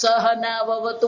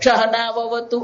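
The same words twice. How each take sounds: First: The first word begins with a dental s sound. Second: The first word begins with a sh sound. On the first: The speaker calls it right. "દાંત થી બોલવાનું" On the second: The speaker calls it wrong. "સહના વવતું નહીં બોલે"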